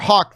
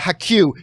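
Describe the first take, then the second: First: The name is said as one syllable. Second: The name is said as two syllables. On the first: The speaker calls it right. "my last name pronunciation is more Hawk" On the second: The speaker calls it wrong. "than uh, Haku"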